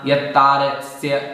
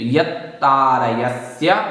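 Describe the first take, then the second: First: A middle syllable is left out of the word. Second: Every syllable of the word is pronounced. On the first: The speaker calls it wrong. "कई लोग थोड़े से यहाँ यत्तारस्य इस प्रकार से बोल देते हैं" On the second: The speaker calls it right. "तो यत्तारयस्य"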